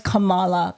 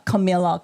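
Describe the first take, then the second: First: Kamala with a broad ah in the middle, KuhMAHluh; Kamala mit langem a. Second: Camilla said as kuh-MIL-uh, short i; Camilla, wrong name. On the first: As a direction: say Kamala as kuh-MAH-lah. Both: Shown as a demonstration.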